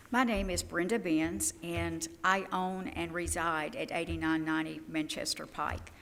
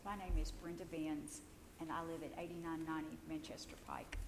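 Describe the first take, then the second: First: Said in the usual way. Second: Hoarse, near-whispered words; raspy whisper. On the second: Real, not acted. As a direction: voice giving out, rasping. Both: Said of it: "I'm losing my voice".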